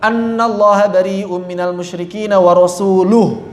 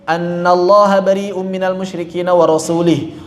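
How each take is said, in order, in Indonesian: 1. Kata terakhir berakhir dengan vokal 'u'. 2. Kata terakhir berakhir dengan vokal 'i'. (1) "pakai dhammah" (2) "kalau kita baca rasulih"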